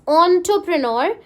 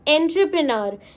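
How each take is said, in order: First: The first syllable sounds like 'on'. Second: The first syllable sounds like 'en'. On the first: The speaker calls it right. "It's ऑन्टरप्रेन्योर" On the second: The speaker calls it wrong. "It's not एंटरप्रेन्योर"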